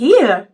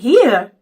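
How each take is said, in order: First: It is said in a Southern accent. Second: The same.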